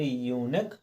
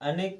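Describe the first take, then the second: First: The word starts with a 'yoo' sound. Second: The word starts with an 'a' sound. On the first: The speaker calls it right. "यूनिक पढ़ा है" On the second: The speaker calls it wrong. "अनिक ना पढ़ के"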